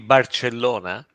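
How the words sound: The name is pronounced with Italian sounds. "in Italian would be"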